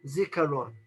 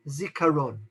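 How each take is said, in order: Both takes have the same delivery.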